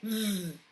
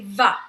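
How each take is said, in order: First: The v sound is said alone with no vowel. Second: The v sound ends with an added uh vowel. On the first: The speaker calls it right. "Just say v" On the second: The speaker calls it wrong. "we don't want to say va. That's not going to be the correct uh, sound for the letter V"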